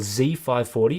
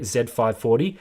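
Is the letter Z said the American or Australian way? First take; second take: American; Australian. First: The letter Z is said the American way. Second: The letter Z is said the Australian way. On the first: "for those of you in the U S" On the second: "Here in Australia"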